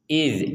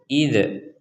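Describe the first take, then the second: First: The final consonant stops cleanly without any bounce. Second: The final consonant is released with an echoing bounce. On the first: The speaker calls it right. "Jadi tidak ada pantulan sama sekali" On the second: The speaker calls it wrong. "Kalau ada pantulannya maka akan terdengar wa idz"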